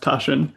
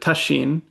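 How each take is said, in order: First: The name is said with American pronunciation. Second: The name is said with Japanese pronunciation. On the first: The speaker calls it wrong. "I mispronounce my own name as Tashin, and because I'm an American" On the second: The speaker calls it right. "in Japanese, you would pronounce it Tashin"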